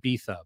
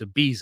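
First: The name is said the way locals say it. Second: The name is said with an ordinary English pronunciation. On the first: This is how the island's people call it. "as they call it" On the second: This is the speaker's preferred way to say it. "I don't like pronouncing it like that. So it's"

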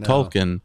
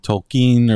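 First: The stress is on the first syllable. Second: The stress is on the second syllable. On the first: The speaker calls it wrong. "I always have said Tolkien" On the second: The speaker calls it right. "it's supposed to be Tolkien or something, and they emphasize the E"

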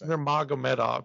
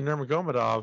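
First: The stress is on the second syllable. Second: The stress is not on the second syllable. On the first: The speaker calls it right. "the stop is on the second syllable" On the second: The speaker calls it wrong. "I used to say Nurmagomedov, and people were like, what the"

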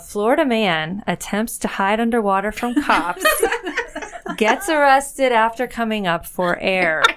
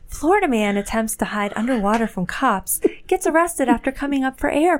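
First: It is read in an ordinary speaking voice. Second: It is read in a put-on phone voice.

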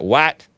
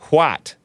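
First: It starts with a plain w sound. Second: It starts with a breathy hw sound. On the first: The speaker calls it wrong. "It's not what" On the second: The speaker calls it right. "It's what"

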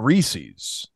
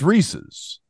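First: The ending is a long 'eez', rhyming with pieces. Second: The ending is a short 'iz', not rhyming with pieces. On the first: The speaker calls it wrong. "It's not Reese's" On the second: The speaker calls it right. "Like it's Reese's"

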